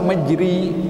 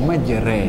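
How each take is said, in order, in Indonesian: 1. Vokal setelah r adalah i tertutup. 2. Vokal setelah r adalah e tengah. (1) "nak baris bawah majri" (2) "bacaannya majre"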